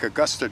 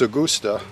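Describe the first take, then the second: First: The name is pronounced like the American city. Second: The name is pronounced the German way. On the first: The speaker calls it wrong. "like Augusta, Georgia" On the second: The speaker calls it right. "German is Augusta"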